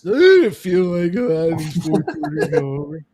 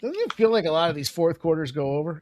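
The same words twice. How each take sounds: First: It is said in a slurred, drunken voice. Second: It is said in a clear, ordinary voice.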